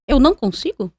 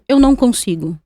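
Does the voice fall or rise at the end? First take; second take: rise; fall. First: It is said as a rising question. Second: It is said as a falling statement.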